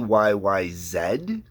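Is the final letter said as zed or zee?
zed. The last letter is said Canadian-style, zed.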